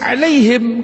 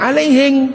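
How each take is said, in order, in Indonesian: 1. Kata ini berakhir dengan bunyi m. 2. Kata ini berakhir dengan bunyi ng.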